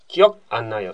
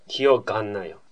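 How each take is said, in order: First: The second word starts with a bare vowel. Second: A g sound links into the second word. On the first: The speaker calls it wrong. "って言わないでしょ" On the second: The speaker calls it right. "記憶がんないよでしょ"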